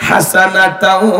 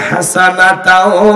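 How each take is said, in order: No difference in how they are said.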